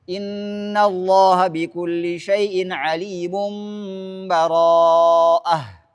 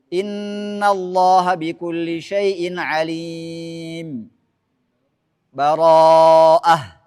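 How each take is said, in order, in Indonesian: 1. Semuanya menyambung tanpa jeda sama sekali. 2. Ada tanda henti penuh sebelum kata terakhir. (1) "Nyambung semuanya" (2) "Itu wakaf pada akhir Al-Anfal. Kemudian lanjutkan awal surah Taubah"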